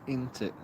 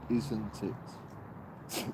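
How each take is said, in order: First: The word 'isn't' is squeezed into short 'int'. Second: The word 'isn't' keeps its full consonant sounds. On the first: "That's what I say. Yorkshire people say int it" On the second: "wait a minute. It's isn't it?"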